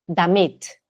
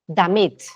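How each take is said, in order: The two takes are said the same way.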